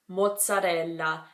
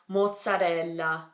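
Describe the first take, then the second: First: It is said with an Italian pronunciation. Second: It is said with an Italian pronunciation.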